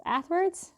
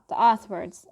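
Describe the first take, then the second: First: "Ath" with a flat American a, higher, asking; American "Ath", questioning. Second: "oth" said with a rounded British o. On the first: Checking the other way to say it, "Ath" American style. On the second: Explaining her British vowel, "oth" British style. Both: Shown as a demonstration. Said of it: "I say that in a British accent".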